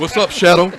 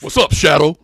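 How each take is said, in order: First: It is said softly, without force. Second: It is said strongly, like Debo talks.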